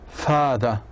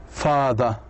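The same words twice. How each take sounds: The two takes are said the same way.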